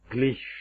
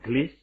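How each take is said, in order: First: The word ends with an sh sound. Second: The word ends without an sh sound. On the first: The speaker calls it right. "tapi glish dengan sh" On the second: The speaker calls it wrong. "Itu bukan glish"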